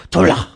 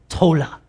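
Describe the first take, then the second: First: Tola with a Hebrew accent, the o rounded and the a open. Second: Said in the usual way. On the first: Shown as a demonstration. Preacher asks the church to say it in a Hebrew accent. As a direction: say tola the Hebrew way, a touch louder. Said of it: "now with a Hebrew accent". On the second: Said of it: "Everyone say tola".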